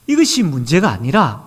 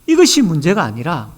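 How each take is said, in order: Both takes have the same delivery.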